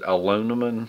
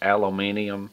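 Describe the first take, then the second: First: The word is said the American way. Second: The word is said the British way. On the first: "I pronounce it aluminum" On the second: "if you're from England or the U K, it's aluminium"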